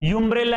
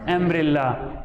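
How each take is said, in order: First: The word begins with a 'you' sound. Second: The word begins with an 'uh' sound. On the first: The speaker calls it wrong. "यूम्ब्रेला है कि अम्ब्रेला है?" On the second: The speaker calls it right. "देखो यू जरूर है लेकिन बोलने में क्या है?"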